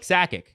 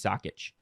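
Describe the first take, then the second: First: The name ends with an 'ick' sound. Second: The name ends with an 'itch' sound. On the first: The speaker calls it wrong. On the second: The speaker calls it right.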